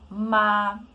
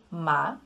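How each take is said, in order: First: The pitch stays high and level throughout. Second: The pitch starts mid and rises upward. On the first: "a gente mantém uma altura mais alta, constante" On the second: "sai daqui de uma altura média e sobe"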